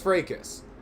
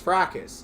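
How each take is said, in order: First: It uses the American pronunciation of the word. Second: It uses the British pronunciation of the word. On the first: "American is fracas" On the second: "The British is fracas"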